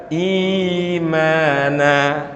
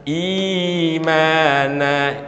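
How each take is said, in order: Both takes have the same delivery.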